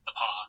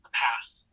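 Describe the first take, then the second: First: The name ends on an open 'aw' vowel. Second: The name ends with a clear 's' sound. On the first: The speaker calls it right. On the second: The speaker calls it wrong.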